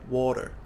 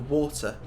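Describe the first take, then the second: First: The T sounds like a soft D. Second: The T is a clear, crisp T.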